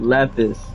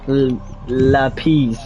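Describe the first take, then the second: First: The word is pronounced the usual English way. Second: The word is pronounced like a Spanish word. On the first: The speaker calls it right. "instead of" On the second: The speaker calls it wrong. "he thinks it's like the Spanish word"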